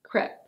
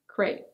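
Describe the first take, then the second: First: The vowel sounds like the 'e' in 'bed'. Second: The vowel sounds like the 'ay' in 'day'. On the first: This is the form more common in British English. "in British English, it's more common for people to say crêpe" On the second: This is the form more common in American English. "In American English, it's more common for people to say crêpe"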